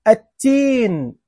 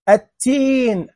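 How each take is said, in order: No difference in how they are said.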